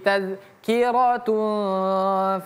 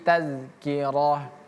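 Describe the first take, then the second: First: The word ends in a t sound plus un. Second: The word ends in an h sound. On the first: The reading continues into the next word. "Kalau mau kita sambung gimana Ustaz?" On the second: The reading stops at this word. "Maka tetaplah dia menjadi bacaan ha"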